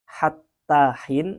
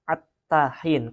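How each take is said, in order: First: The word begins with a breathy h sound. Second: The word begins directly with a vowel, no h. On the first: This is the usual reading. "yang selama ini kita baca hattahin" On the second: The h sound is hard for some speakers. "ada yang membaca attahin, karena memang ha itu susah dibaca"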